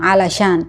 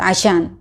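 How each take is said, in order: First: Alashan with a clear l sound; careful alashan; with the lam. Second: Ashan said quickly with the l swallowed; casual quick ashan; fast, lam dropped. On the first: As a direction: pronounce every letter of alashan, l included. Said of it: "itu pakai lam". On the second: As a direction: clip alashan down to ashan. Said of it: "kalau misalnya cepet". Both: Shown as a demonstration.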